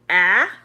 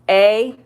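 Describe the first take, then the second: First: The vowel is short, as in cat. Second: The vowel is long, like the letter name. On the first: "Short would be A" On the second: "they say their name"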